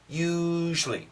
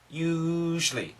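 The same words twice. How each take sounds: First: The word is said with two syllables. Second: The word is said with two syllables.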